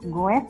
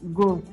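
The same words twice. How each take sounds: First: The word is sounded out as it is spelled. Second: The word is said with its normal pronunciation. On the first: "Tulisannya goes ya" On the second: "tapi dibaca goes"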